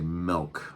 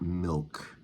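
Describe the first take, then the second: First: The vowel sounds like the e in 'bed'. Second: The vowel sounds like the i in 'bit'. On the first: "We also say milk, M E L K" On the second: "not milk"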